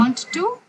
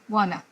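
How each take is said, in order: First: Both words are said fully and separately. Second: The words blend into one reduced word. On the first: It is formal enough for an interview. The speaker calls it right. "I want to" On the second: It is very informal speech. The speaker calls it wrong. "but that's very informal"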